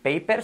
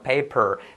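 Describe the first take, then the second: First: The R sound is weak and plain. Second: The R sound is strong and exaggerated. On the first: The speaker calls it wrong. "no vamos a decir paper" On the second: The speaker calls it right. "la R bien potente"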